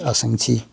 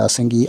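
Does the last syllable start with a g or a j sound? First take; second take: j; g. First: The last syllable begins with a j sound. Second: The last syllable begins with a hard g sound. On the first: "지자로 읽기도 합니다" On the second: "기자로 읽기도 하고"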